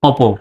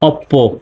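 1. মাঝের p ধ্বনিটি একক হয় এবং ছোট করে উচ্চারণ করা হয়। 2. মাঝের p ধ্বনিটি দ্বিত্ব হয় এবং দীর্ঘ করে উচ্চারণ করা হয়। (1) "এর উচ্চারণটা হবে শুধু অপো ... এই উচ্চারণটা হলো সঠিক" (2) "অনেকে এটা অপ্পো বলে, এরকম বলে অপ্পো ... এটা কিন্তু টোটালি ভুল"

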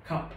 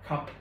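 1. Nó được phát âm theo kiểu tiếng Anh. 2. Nó được phát âm theo kiểu tiếng Anh.

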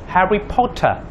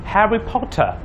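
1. Diucapkan dengan aksen British. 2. Diucapkan dengan aksen British.

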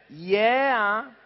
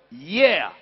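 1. Sembra una domanda, con l'intonazione che sale alla fine. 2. Sembra un'esclamazione, decisa, con l'intonazione che scende. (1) "Senti la differenza. Yeah, interrogativo" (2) "Esclamativo, yeah"

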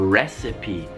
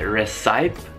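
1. La e finale si pronuncia. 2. La e finale è muta. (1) "la E alla fine si dice recipe" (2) "voi dite recipe?"

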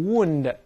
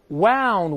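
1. 这个元音和 'moon' 里的一样。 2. 这个元音和 'cow' 里的一样。

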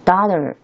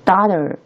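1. 这是美式口音。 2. 这是美式口音。

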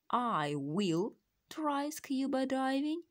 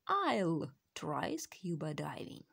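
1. Слово will произносится полностью. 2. Слово will сокращается до 'll. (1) "Можно говорить" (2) "will употребляется краткой формой"

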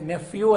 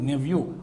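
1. మధ్య హల్లు f ధ్వని. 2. మధ్య హల్లు v ధ్వని.

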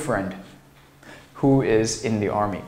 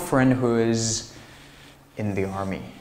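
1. 'who'前面有停顿。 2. 连着读下去，'who'前面没有停顿。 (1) "如果你在这儿非得把它切分开啊，不是不可以" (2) "他基本上都会把它进行联系起来"

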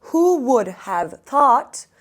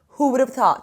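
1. Cümle yavaş söyleniyor, kelimeler birbirinden ayrı. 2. Cümle orta bir hızda söyleniyor.

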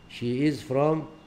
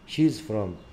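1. يُقال الفعل ككلمة كاملة ومنفصلة. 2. يُقال الفعل مختصرًا ومتصلًا بالضمير.

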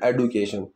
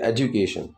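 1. बीच का व्यंजन सीधा, साफ़ d है। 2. बीच का व्यंजन नरम लगता है, लगभग j जैसा। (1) "बस ब्लंटली उस चीज़ को बोलना" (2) "वो ड की प्रोनाउंसिएशन इस तरीके से दी जाती है"

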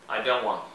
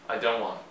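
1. É dito rapidamente e o T quase não se ouve. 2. É dito rapidamente e o T quase não se ouve.

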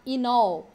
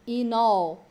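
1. As duas palavras são ditas juntas. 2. As duas palavras são ditas juntas.

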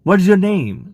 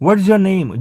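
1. 'is' શબ્દ સંકોચાઈને 'what's' બને છે. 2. 'is' શબ્દ સંકોચાઈને 'what's' બને છે.

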